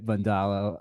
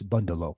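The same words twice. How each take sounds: First: The stress is not on the first syllable. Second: The stress is on the first syllable.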